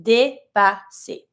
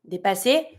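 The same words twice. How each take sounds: First: "Dépasser" very slowly in three parts, "day, pah, say"; syllable-by-syllable pronunciation. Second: Said in the usual way. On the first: Shown as a demonstration. Teacher showing learners the ER ending, slow syllable-by-syllable pronunciation. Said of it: "it's the same accent as the E that has the high accent". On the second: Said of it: "it's the same accent as the E".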